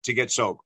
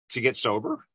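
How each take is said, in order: First: "sober" falling, as a plain statement; settled, downturned "sober"; statement answer. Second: "sober" lifted at the end like a question; unsure, upturned "sober?"; questioning answer. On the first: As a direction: state it firmly, SOBER dropping at the end. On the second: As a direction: answer tentatively, SOBER rising as if asking. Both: Retold or imitated. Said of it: "with a statement instead of a question".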